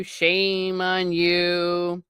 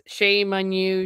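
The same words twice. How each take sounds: First: Slow, heavy mock reproach; drawn-out mock scolding. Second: A hint of a stern old preacher; mild mock scolding, not drawn out; lightly voiced scolding servant. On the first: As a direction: shame on you stretched very slowly. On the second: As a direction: scold with quick disapproval. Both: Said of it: "they talk in his Yorkshire dialect".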